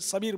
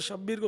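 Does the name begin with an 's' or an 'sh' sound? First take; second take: s; sh. First: The name begins with an 's' sound. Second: The name begins with an 'sh' sound. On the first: The speaker calls it wrong. "सबीर सबीर बोलते हैं" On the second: The speaker calls it right. "शब्बीर को"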